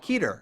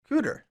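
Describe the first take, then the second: First: The first vowel is an 'ee' sound. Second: The first vowel is an 'oo' sound. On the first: The speaker calls it right. "But it's Hidley and Keeter apparently" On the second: The speaker calls it wrong. "It's like Hi- Hidley, Cooter, right?"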